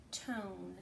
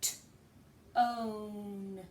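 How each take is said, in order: First: "tone" said whole, softer; blended word. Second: "t-own" split into sound parts; stretched sounding out. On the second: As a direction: segment "t-own" slowly. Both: Shown as a demonstration. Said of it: "now it says".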